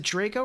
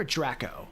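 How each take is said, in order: First: "Draco" said with a long A, DRAY-co; "Draco" as in Harry Potter, DRAY-koh; DRAY-co pronunciation. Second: "Draco" said with a short A, DRACK-o; "Draco" as DRACK-oh, short flat A as in "back"; DRACK-o pronunciation. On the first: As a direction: say "Draco" with the first vowel of "day". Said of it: "Like Draco, like Harry Potter". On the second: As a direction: say "Draco" with the first vowel of "Dracula". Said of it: "or like Draco, like Dracula". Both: Shown as a demonstration.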